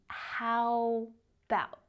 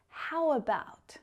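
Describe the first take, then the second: First: The words are squeezed into a shorter form. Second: The two words flow together as one. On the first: "reduce it even further" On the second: "The words are connected together. They flow"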